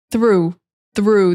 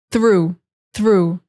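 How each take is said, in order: First: Through with a hard TH then R; teacher models through with strong TH. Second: Through with a clear TH gliding to R; teacher shows through to learners. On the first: Teacher drills through, TH then R. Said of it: "strong T H sound". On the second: Teacher repeats through with strong TH. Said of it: "from the T H to the R". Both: Shown as a demonstration.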